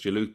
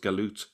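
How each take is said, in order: First: The word begins with a j sound. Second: The word begins with a hard g sound. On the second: This is how it is said in places like Egypt. "still pronounced as galut in places like Egypt"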